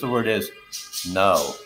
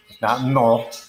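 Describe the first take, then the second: First: The vowel glides from one sound into another. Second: The vowel is one pure, unchanging sound. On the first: The speaker calls it right. "It's two vowel sounds merging with each other" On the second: The speaker calls it wrong.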